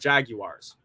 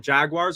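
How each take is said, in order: First: The word is said with three syllables. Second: The word is said with two syllables. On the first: "or three" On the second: "two syllables"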